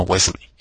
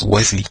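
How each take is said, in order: First: Wesley with the E sounded, ending "ley"; Wesley with an "ey" on the last syllable; wrong pronunciation. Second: Wesley with a silent E, ending "lee"; Wesley with the last syllable just "li"; correct pronunciation. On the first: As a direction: say Wesley as "wes-lay". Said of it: "no Wesley". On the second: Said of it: "Es prácticamente muda". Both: Shown as a demonstration.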